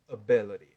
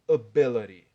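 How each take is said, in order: First: The middle consonant is a soft flapped d. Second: The middle consonant is a soft flapped d.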